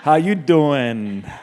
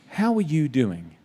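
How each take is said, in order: First: It imitates Joey Tribbiani's way of asking. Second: It sounds like a serious, caring question.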